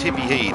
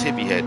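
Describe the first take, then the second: First: The name is said with a Scottish vowel. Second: The name is said with a standard vowel. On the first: "it's a Scottish way of saying it" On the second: "That's Hippie Head"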